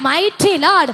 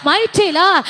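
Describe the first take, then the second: No difference in how they are said.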